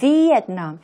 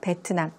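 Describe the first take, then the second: First: It starts with a V sound, English style. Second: It starts with a B sound, Korean style. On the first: The speaker calls it right. "베트남이 아니라 Vietnam" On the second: The speaker calls it wrong. "우리말로는 베트남"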